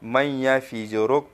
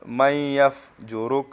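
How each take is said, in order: First: An extra i vowel follows the f. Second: The f runs straight into the j. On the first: The speaker calls it wrong. "मन यफ़िजुरुक पढ़ते हैं ... तो ये गलत है" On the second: The speaker calls it right. "यहाँ मन यफ़जुरुक नहीं पढ़ते हैं"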